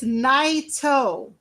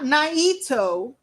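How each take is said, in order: First: The 'i' sound carries no extra stress. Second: The 'i' sound is stressed. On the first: The speaker calls it right. "It's just Naito" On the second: The speaker calls it wrong. "You don't put an emphasis on the I in Naito"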